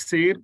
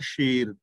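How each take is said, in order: First: The word begins with a plain s sound. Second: The word begins with an sh sound. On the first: It means a unit of weight. The speaker calls it wrong. "ਇਹਨੂੰ ਜੇ ਸ਼ੇਰ ਪੜਾਂਗੇ ਤੇ ਫਿਰ ਹੋ ਜਾਏਗਾ kilo" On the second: It means bold or brave. The speaker calls it right. "ਸੱਸੇ ਦੇ ਪੈਰ ਥੱਲੇ ਬਿੰਦੀ ਲਗਾ ਕੇ ਇਸ ਦਾ ਉਚਾਰਨ ਹੋਏਗਾ ਸ਼ੇਰ"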